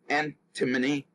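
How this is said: The word is said in the British way. "the British English usually uh, pronounces it as antimony"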